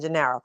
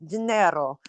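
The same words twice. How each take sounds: First: The name is said with a plain American accent. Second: The name is said with an exaggerated Italian accent. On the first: This is how the name would actually be used. "It would have been Gennaro" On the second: This is not how the name would be used day to day. "Obviously, I wouldn't have said it like that"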